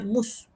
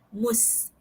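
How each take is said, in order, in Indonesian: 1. Suku kata itu diucapkan dengan bunyi tebal dan berat. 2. Suku kata itu diucapkan dengan bunyi tipis dan ringan. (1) "dia bunyi bunyi tebal kat telinga ustazah" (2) "mus tu dia dia nipis"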